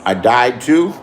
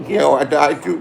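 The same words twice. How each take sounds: First: Low, rising disbelief; surprised question. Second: Amused, chuckling through it; laughing. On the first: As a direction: ask it like you can't believe it. Hears rumor he died. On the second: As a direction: laugh off the rumor. Laughs at rumor of his death. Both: Real, not acted.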